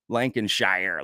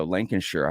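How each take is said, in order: First: Lancashire said the American way, ending in a full "shire" like "shy-er"; American pronunciation. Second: Lancashire with a short, reduced ending like "LANK-a-sher"; British pronunciation. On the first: Recalling how she used to say the county name, American "shy-er" ending. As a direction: say Lancashire with a long "shire" rhyming with fire. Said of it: "that's very American". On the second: Correcting herself for a viewer from England, British "sher" ending. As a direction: clip the end of Lancashire down to a quick "sher". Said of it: "but then I learned".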